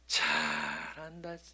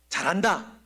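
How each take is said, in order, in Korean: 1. 비꼬며 놀리는 말투로 말해요. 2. 진심 어린 칭찬의 말투로 말해요. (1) "조롱입니다" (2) "칭찬입니다"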